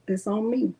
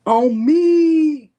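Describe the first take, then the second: First: Said in the usual way. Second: High, loud punchy "On me"; sing-song loud "On me" for effect; emphatic repeat. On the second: Shown as a demonstration. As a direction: belt out "On me" with flair. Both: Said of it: "Just wanted to say it like that".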